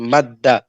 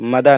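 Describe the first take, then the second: First: The d sound is held long and doubled. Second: The d sound is short and single. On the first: The speaker calls it right. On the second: The speaker calls it wrong. "मदा नहीं"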